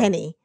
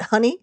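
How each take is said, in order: First: The vowel sounds like 'eh', as in Henny. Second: The vowel sounds like 'uh', as in Honey. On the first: The speaker calls it wrong. "Not Henny. not Henny like it's spelled" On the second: The speaker calls it right. "but Honey"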